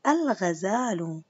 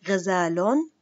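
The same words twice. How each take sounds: First: الغزال slowly, l sounded, ending -u; al-ghazalu, drawn out. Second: غزال with the tanween ending -on; ghazalon, clear; without al. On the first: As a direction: read it with al for the class. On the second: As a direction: read the word bare. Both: Shown as a demonstration. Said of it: "سأعيد قراءة الكلمات".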